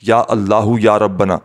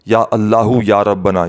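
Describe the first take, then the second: Both takes have the same delivery.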